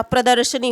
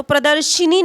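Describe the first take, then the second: First: प्रदर्शनी with sha, not shi; correct form. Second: प्रदर्शिनी with a stressed shi syllable; wrong form. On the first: Teacher giving students the exam word, correct form. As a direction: say pra-dar-sha-nee for प्रदर्शनी. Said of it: "प्रदर्शनी होगा". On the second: Teacher rejecting the common mistake, wrong form. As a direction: put an i after sh in प्रदर्शिनी. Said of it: "प्रदर्शिनी नहीं होता". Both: Shown as a demonstration.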